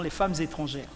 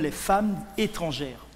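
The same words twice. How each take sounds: First: A z sound links femmes and étrangères. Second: No z sound links femmes and étrangères. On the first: The speaker calls it wrong. "et non les femmes étrangères" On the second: The speaker calls it right. "comme les femmes étrangères"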